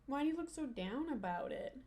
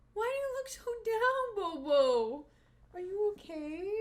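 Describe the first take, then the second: First: Said in the usual way. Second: Much higher, cooing pet voice. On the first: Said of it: "repeats in dog voice". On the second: Real, not acted. Owner cooing to her droopy dog, high baby talk. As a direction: coo at the sad puppy. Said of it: "same words, baby voice".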